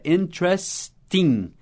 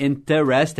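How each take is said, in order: First: Interesting slowly as "IN-tres-ting"; first e dropped. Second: Interest with three syllables, "in-ter-REST"; first e sounded. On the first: Teacher modelling the correct form, interesting as slow "IN-tres-ting". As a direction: say "interesting" in three beats, without the first e. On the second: Teacher showing the form to avoid, interest as "in-ter-est". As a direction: keep the "ter" full in "interest". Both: Shown as a demonstration. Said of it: "Ignore o primeiro E".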